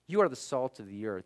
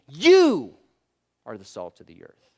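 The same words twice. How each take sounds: First: The word 'you' carries no special stress. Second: The word 'you' is strongly stressed. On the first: The speaker calls it wrong. "It wasn't him saying" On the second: The speaker calls it right. "It was him saying"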